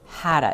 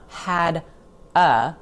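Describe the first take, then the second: First: The two words blend into one reduced word. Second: The two words are said separately and fully. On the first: "but hadda. It flows" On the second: "Not had a"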